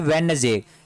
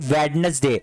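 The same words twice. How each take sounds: First: The d sound in the middle is silent. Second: The d sound in the middle is pronounced. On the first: The speaker calls it right. "डी word यहां पे नहीं बोला जाता है" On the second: The speaker calls it wrong. "आप सभी ही बोलते होंगे वेडनेसडे"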